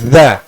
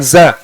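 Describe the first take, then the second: First: The consonant is a th-like sound between teeth. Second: The consonant is a plain buzzing z sound. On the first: The speaker calls it right. "itu za" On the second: The speaker calls it wrong. "Bukan za"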